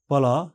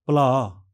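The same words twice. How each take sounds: First: Said in the usual way. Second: पला with the final आ stretched; extra long vowel. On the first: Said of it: "साधारण". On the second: Shown as a demonstration. Teacher contrasts the long पला with the plain one. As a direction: draw the last आ of पला out long. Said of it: "extra long vowel".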